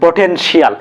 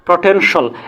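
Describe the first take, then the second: First: The ending has an extra 'ee' sound: shial. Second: The ending is a single short syllable: shal. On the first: The speaker calls it wrong. "আমরা সাধারণত এটাকে কি বলি পটেনশিয়াল" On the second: The speaker calls it right. "সঠিক উচ্চারণ according to British accent অনুযায়ী সেটা হবে প্রটেনশাল"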